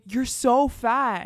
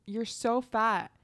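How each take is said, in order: First: Loud, drawn-out mock insult; stretched, emphatic retold jab; retold louder tease. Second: Retold tease. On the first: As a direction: imitate a classmate blurting it out, slowly. Tease repeated as everyone turns. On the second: Retold tactless remark from classmate.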